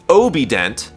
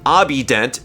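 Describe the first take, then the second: First: The name is said as 'Obident'. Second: The name is said as 'Abident'. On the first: The speaker calls it right. "it's Obident" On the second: The speaker calls it wrong. "It's not Abident"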